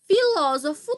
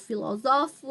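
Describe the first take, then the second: First: The stress is on the second syllable. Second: The stress falls on a later syllable. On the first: It is the noun. "tem acento quando é substantivo" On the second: It is the verb. "não vai ter acento"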